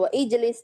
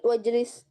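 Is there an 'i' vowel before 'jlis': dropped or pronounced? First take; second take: pronounced; dropped. First: An i vowel is pronounced before jlis. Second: Wa joins directly to jlis without an i. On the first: The speaker calls it wrong. "bukan wa ijlis" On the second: The speaker calls it right. "wajlis bukan wa ijlis tapi wajlis"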